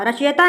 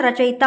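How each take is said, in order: First: रचयिता said with a plain "ya", as "rach-yeta"; wrong pronunciation. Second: Said in the usual way. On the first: Shown as a demonstration. Teacher shows the wrong word form, mispronounced "rach-yeta". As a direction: run "ya" into रचयिता, no short i. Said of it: "रचयिता नहीं होता है". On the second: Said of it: "रचयिता होता है".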